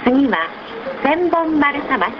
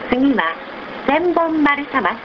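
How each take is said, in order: Both takes have the same delivery.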